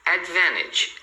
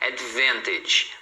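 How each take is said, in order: First: The T sound after the N is dropped. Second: The T sound after the N is pronounced. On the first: "Então fica advantage" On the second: "não está errado você falar advantage"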